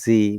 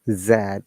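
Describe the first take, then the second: First: The letter is said as zee. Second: The letter is said as zed. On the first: "is pronounced Z by the American English" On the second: "which you pronounce in the British English"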